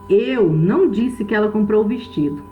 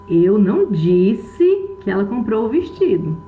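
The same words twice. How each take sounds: First: The stress falls on the word eu. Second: The stress falls on the word disse. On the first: Someone else said it. "Que eu não falei isso. Pode ser que outra pessoa tenha falado" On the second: It was thought or written, not said aloud. "Eu posso ter pensado, posso ter escrito, mas eu não falei"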